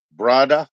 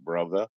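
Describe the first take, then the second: First: "brother" as "BRAH-da", lifted and louder; playful "brother". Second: "brother" low, with a soft middle consonant and dropped R; slangy "brother". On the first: Streamer riffing with a viewer, playful "BRAH-da" for brother. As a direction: hit "brother" with a broad AH and hard D. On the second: Streamer riffing with a viewer, low slangy "brother". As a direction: say "brother" low, ending in an open "uh". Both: Pretend. Plays with two pronunciations of brother.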